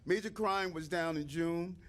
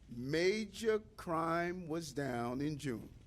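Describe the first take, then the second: First: It is said fast. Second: It is said slowly.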